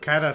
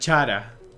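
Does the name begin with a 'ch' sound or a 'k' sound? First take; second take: k; ch. First: The name begins with a 'k' sound. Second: The name begins with a 'ch' sound. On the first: It is read as coming from the English word character. The speaker calls it wrong. "cara de character... Cara suena raro" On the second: It is read the Spanish way. The speaker calls it right. "si lo pronuncio en español sería Chara. Que suena bien dentro de todo"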